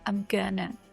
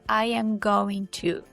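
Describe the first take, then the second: First: The words are contracted and run together. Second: Every word is said fully and separately. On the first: "They say" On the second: "people don't say"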